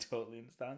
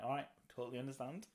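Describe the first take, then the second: First: Laughing through the words. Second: Said in the usual way. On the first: Real, not acted. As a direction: chuckle while repeating it. Repeats own line laughing. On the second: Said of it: "And I'm like".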